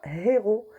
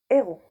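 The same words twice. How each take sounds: First: The word starts with an audible h sound. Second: The word starts directly with a vowel sound. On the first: The speaker calls it wrong. "on ne dit pas héros" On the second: The speaker calls it right. "on dit héros"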